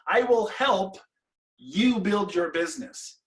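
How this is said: There is a pause right after the word help. The speaker helps, but the listener builds the business. "draw a line in the middle between those two sides"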